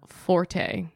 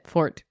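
First: The word is said with two syllables. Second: The word is said with one syllable. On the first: This is how most people say it. The speaker calls it wrong. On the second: This is the supposedly correct pronunciation. The speaker calls it right.

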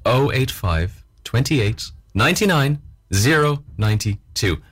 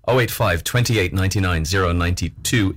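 First: The number is read slowly. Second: The number is read quickly. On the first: The speaker calls it right. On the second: The speaker calls it wrong.

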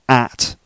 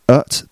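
First: The vowel is full and not reduced. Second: The vowel is reduced to a weak schwa. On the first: The speaker calls it wrong. "It's not at" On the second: The speaker calls it right. "that's a weak form"

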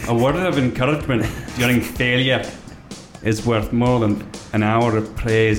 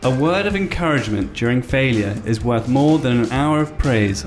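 First: It is spoken in a put-on Scottish accent. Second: It is spoken in the speaker's ordinary accent.

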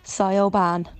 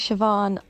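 First: The name is said with a European mispronunciation. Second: The name is said with its Irish pronunciation. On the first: This is how people abroad mispronounce it. The speaker calls it wrong. "when I go to Europe, people call me Sioban" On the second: This is the name's real pronunciation. The speaker calls it right. "my name is Siobhan"

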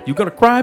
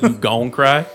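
First: It is said in a neutral accent. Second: It is said in a Southern US accent.

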